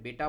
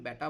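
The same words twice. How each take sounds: First: বেটা said the Hindi way, as the correct model; বেটা modelled in correct Hindi for the learners. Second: বেটা said the Bengali way, as heard in Bengali speech; বেটা in a Bengali accent, as the wrong example. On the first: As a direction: give বেটা its Hindi sounds, clearly and carefully. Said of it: "এটাকে বেটা বলতে হবে". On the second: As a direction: read বেটা with Bengali sounds to show the mistake. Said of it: "এটা কিন্তু বেটা বলা যাবে না". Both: Shown as a demonstration.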